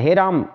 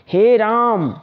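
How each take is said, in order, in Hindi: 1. यह जल्दी से छोटे स्वरों के साथ बोला जाता है। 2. यह धीरे से लंबे खिंचे हुए स्वर के साथ बोला जाता है। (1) "इतना जल्दी नहीं बोलना है" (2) "तिगुना समय लेकर के बोलना है"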